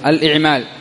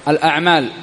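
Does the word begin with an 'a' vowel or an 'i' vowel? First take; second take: i; a. First: The word begins with an 'i' vowel. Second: The word begins with an 'a' vowel. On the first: The speaker calls it right. "بل هو بكسر الهمزة الإعمال" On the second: The speaker calls it wrong. "وليس الأمر كما قاله البعض الأعمال"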